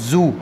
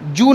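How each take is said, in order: First: The word begins with a z sound. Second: The word begins with a j sound. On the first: The speaker calls it right. "ये जा वाला करेंगे, नुक्ता वाला" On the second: The speaker calls it wrong. "जू नहीं है"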